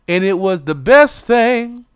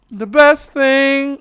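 First: Said in the usual way. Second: The best thing, higher and slow, best stretched; savoured emphasis. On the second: Shown as a demonstration. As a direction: linger on best. Repeats, higher and slower.

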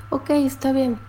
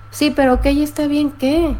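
First: Softer, minimal acknowledgement; curt dismissive reply. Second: Higher, exasperated challenge; mildly annoyed comeback. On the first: Partner answering an angry complaint with few words, curt and dismissive. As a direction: brush it off quietly in few words. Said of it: "ellos nada más contestan". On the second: Angry woman pressing the partner who only answers ok, mildly exasperated. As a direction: press for a real answer, a touch frustrated. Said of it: "puedes estar tú muy enojada". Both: Acted.

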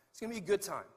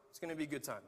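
First: Bright, sold-hard promise; upbeat promise. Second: Same line said lower and softer, unsure; doubtful repeat. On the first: Pastor promising members the class will be fun, upbeat. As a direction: sell the class with cheer. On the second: Pastor second-guessing his own class pitch, deflating. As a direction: let the promise sag into doubt. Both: Shown as a demonstration. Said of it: "Maybe not".

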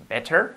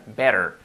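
First: "better" with a full, hard T; careful "better" with an unflapped T; clearly sounded T. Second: American "Better" with a tapped middle; natural flapped T. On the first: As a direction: pronounce the middle of "better" as a true T, not a flap. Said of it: "suena bien, pero con la T". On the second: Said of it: "nos queda mucho más real". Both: Shown as a demonstration.

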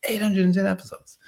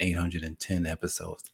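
First: High, marvelling repeat of "eight hundred and ten episodes"; amazed emphasis. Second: Said in the usual way. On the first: Real, not acted. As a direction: punch the number up high in amazement.

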